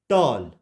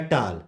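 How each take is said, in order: First: टॉल said with a rounded 'aw'; correct vowel. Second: टाल with a long open 'aa'; wrong vowel. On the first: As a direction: model टॉल with 'aw' in place of 'aa'. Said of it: "इसको हम पढ़ेंगे". (टॉल में 'ऑ' की गोल आवाज़) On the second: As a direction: say टाल with 'aa', as a mistake to avoid. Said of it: "नहीं". (टाल में 'आ' की आवाज़) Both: Shown as a demonstration.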